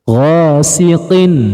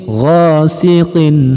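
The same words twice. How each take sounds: Both takes have the same delivery.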